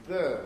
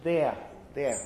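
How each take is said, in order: First: "there" with the vowel of "fur", as in northern England; attempted northern English "there", sounding like "thur"; northern English accent. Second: "there" in Southern Standard British, no final r; non-rhotic RP "there" with an open vowel; RP accent. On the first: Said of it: "the two words with exactly the same vowel". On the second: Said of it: "the way to do it in R P or in Southern Standard British English". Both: Shown as a demonstration.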